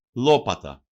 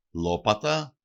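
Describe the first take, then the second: First: Λόπατα stressed on first syllable, falling; antepenultimate stress. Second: Λόπατα stressed on first syllable, rising at the end; antepenultimate stress. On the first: Teacher showing the stress rule to learners, first-syllable stress, falling. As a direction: hit the first syllable of Λόπατα loudly, then drop. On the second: Teacher repeating the example for learners, first-syllable stress, rising. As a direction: stress the start of Λόπατα, lift the ending. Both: Shown as a demonstration. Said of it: "προπαραλίγουσα συλλαβή".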